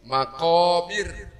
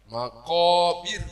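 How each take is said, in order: The two takes are said the same way.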